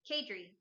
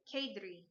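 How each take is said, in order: First: Said in the usual way. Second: Kadri said with a slight foreign accent; a hint of an accent on Kadri; accented name. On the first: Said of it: "I don't know why I just said that with an accent". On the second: Real, not acted. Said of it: "I just said that with an accent".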